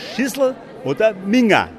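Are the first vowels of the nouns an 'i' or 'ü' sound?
i. The vowels are unrounded i sounds. "da sagen wir Schüssel oder Minger. Also mit I"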